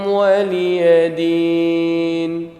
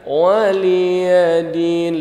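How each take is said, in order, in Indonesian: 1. Vokal setelah L dibuat pendek. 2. Vokal setelah L dipanjangkan. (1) "Linya jangan panjang, ya-nya jangan panjang" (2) "linya panjang tuh"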